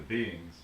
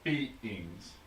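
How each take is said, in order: First: The word is said with its usual syllables. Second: The word is stretched with an added syllable. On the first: "as opposed to beings" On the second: "You keep saying beings ... you're really emphasizing or adding in a syllable"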